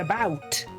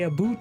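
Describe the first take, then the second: First: It has the speaker's own plain 'abowt' vowel. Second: It has a strong stereotyped Canadian 'aboot' vowel.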